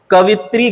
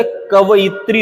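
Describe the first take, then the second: First: कवित्री in three syllables, ka-vit-ree; wrong pronunciation. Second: कवयित्री with a yi, ka-va-yit-ree; correct pronunciation. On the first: Teacher showing the mistake, कवित्री said as ka-vit-ree. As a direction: drop the yi, say कवित्री. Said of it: "गलत है". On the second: Teacher correcting it, कवयित्री said as ka-va-yit-ree. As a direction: sound the yi in कवयित्री. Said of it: "होता है". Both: Shown as a demonstration.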